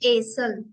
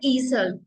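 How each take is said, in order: First: The word begins with an 'ay' vowel. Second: The word begins with an 'ee' vowel. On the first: The speaker calls it right. "इसको प्रोनाउंस करिए हम एसल" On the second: The speaker calls it wrong. "Not ईसल"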